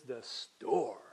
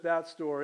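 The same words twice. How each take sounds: First: STORE stretched out long and slow; stress on STORE. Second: Said in the usual way. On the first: Shown as a demonstration. Preacher showing Greek emphasis on the object, STORE drawn out. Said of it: "is there to emphasize the object". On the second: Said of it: "it's not just that store".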